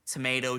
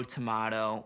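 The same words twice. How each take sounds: First: "tomato" as tuh-MAY-toe; "tomato" rhyming with potato; tomato with long A. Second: "tomato" as tuh-MAH-toe; "tomato" with an open ah vowel; tomato with broad A. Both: Shown as a demonstration. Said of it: "what's the goddamn difference".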